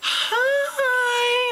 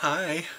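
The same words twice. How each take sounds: First: It is said brightly and confidently. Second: It is said awkwardly and stumbling.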